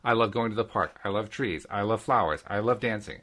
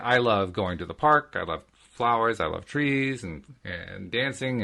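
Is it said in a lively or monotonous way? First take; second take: monotonous; lively. First: It is said in a flat, monotonous way. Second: It is said in a lively, conversational way.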